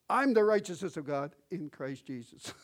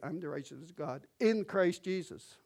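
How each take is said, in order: First: "I'm" blasted loud and high, the rest tailing off; stress on I'M. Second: "in Christ Jesus" punched louder and higher; stress on IN CHRIST JESUS. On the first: Preacher mimicking believers' wrong emphasis, heavy stress on "I'm". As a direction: hit "I'm" hard, as if boasting you've arrived. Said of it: "But their emphasis". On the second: Preacher showing where emphasis should be, stressing "in Christ Jesus". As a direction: land the weight on "in Christ Jesus". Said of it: "their emphasis should be". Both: Shown as a demonstration.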